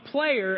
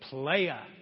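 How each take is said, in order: First: The word is said in a plain standard way. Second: The word is said in a slangy street style. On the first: It means a member of a team. The speaker calls it right. "We're talking about player" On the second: It suggests a womanizer rather than a team member. The speaker calls it wrong. "don't say it like this. Don't go playa like that"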